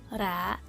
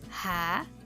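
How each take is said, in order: First: The r is a soft, light tap. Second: The r is a strong, harsh sound. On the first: "Som fraco de R é ra" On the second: "Som forte de R é ra"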